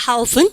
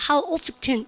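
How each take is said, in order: First: "often" with the T silent, like "off-en". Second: "often" with the T pronounced, like "off-ten"; sounded T in often. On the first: Teacher models the standard form for students, silent T in "often". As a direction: say "How often" dropping the T of "often". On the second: Teacher shows the dialect variant, T sounded in "often". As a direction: say "How often" with a clear T inside "often". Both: Shown as a demonstration. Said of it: "트 발음 다 하는 원어민도 많아요".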